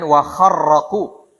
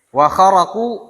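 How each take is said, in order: First: The r sound is long and doubled. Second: The r sound is short and single.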